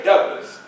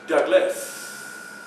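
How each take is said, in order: First: Said in the usual way. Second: "Douglas" slow and soft, with a long hissing s at the end; hissing final S. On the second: Shown as a demonstration. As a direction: stretch the last s of "Douglas". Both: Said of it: "You sound off with the S's".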